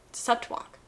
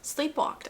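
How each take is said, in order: First: "slept walk" whispered as a doubtful try; "slept walk" murmured as the wrong past tense; wrong form slept walk. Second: "Sleepwalked" said softly, one word, as the right past tense; "Sleepwalked" as the correct past tense, said soft and higher; correct form sleepwalked. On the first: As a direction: test "slept walk" under the breath, unsure. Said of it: "Sleepwalked, I think, is correct". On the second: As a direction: settle on "Sleepwalked", quietly sure. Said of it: "I think, is correct". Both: Shown as a demonstration.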